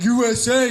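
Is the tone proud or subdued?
proud. It is said loudly with a proud tone. The speaker is proud of the country. "They used to be so proud"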